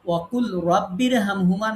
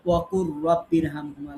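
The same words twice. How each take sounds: First: "ওয়াকুল" with a clear l before "রাব্বির"; wrong reading shown. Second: "ওয়াকুর" with the lam dropped and a doubled r into "রাব্বির"; correct merged reading. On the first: Teacher showing students the reading to avoid, with the lam sounded. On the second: Teacher showing students the correct reading, lam dropped and r doubled. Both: Shown as a demonstration. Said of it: "না বলে আমরা বলি".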